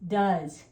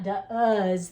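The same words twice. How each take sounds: First: It is said with its usual pronunciation. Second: It is sounded out letter by letter. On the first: The speaker calls it right. "It's it's does" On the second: The speaker calls it wrong. "It's not does the way it sounds"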